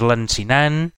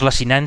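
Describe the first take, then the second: First: There is an n sound before the c. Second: There is no n sound before the c. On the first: The speaker calls it right. "sinó que és lancinant" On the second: The speaker calls it wrong. "no és lacinant"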